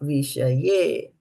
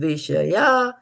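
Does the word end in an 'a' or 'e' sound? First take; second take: e; a. First: The word ends in an 'e' vowel. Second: The word ends in an 'a' vowel. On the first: The speaker calls it wrong. "and not Vishaye" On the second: The speaker calls it right. "So it is Vishaya"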